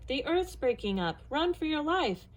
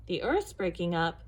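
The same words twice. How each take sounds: First: Higher-pitched cry of alarm, mildly acted; frightened shout. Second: Understated, slightly rumbled question; a hint of a puzzled elephant; lightly rumbling elephant. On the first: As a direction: warn urgently, climbing higher. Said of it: "terrified animals only shouted". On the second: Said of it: "rumbled the elephant". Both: A narrator's reading.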